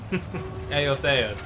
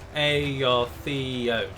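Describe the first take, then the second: First: The opening vowels are said as separate sounds. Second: The same.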